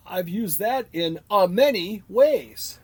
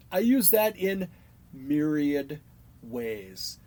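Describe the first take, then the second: First: "a many ways" drawn out slowly; slow, pointed "a many ways"; mimicked misuse. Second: "myriad" set apart by pauses, no "a" before it; measured, separated "myriad ... ways"; correct usage. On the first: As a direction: spell out the mistake with a deliberate "a many". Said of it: "let me say the word many, how people say myriad". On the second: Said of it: "No, it's just". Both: Shown as a demonstration.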